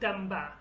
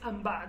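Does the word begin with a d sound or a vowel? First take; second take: d sound; vowel. First: The word begins with a d sound. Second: The word begins with a vowel sound. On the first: This is the standard Kurdish form. "in Kurdish standard, the standard Kurdish, you have to say damba" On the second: This is a regional accent form. "in Slemani accent ... then he says amba"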